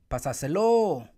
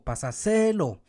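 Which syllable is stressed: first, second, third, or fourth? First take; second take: fourth; third. First: The stress is on the fourth syllable. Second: The stress is on the third syllable.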